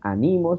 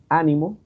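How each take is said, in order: First: The stress is on the second syllable. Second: The stress is on the first syllable. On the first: The speaker calls it right. "No decían" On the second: The speaker calls it wrong. "sino decían"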